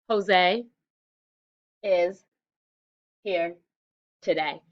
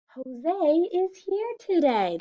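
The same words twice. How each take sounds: First: The words are separated by breaks. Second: The words flow together without breaks. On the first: The speaker calls it wrong. "This is not smooth. That was choppy" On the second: The speaker calls it right. "That was smooth"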